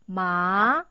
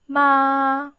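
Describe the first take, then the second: First: The pitch rises from middle to high. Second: The pitch stays high and level throughout. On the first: "It's an up tone. You could see it's from line three to line five" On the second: "It's in the highest line five. So find your highest key and then pronounce smoothly"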